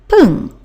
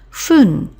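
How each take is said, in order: First: The word begins with a p sound. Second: The word begins with an f sound. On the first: It follows a number ending in ten. "the other pronunciation of fun, and that is pung" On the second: It follows a number ending in five. "after a five, we pronounce this one fun"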